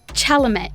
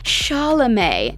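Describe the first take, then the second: First: The final T is sounded. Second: The final T is silent. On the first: The speaker calls it wrong. "not Chalamet" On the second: The speaker calls it right. "The C is more of an S, and the T is actually silent"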